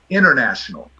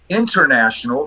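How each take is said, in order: First: The T after the N is dropped. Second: The T after the N is clearly pronounced. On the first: "vira international" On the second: "você fala international"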